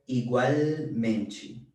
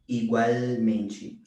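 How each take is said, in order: Both takes have the same delivery.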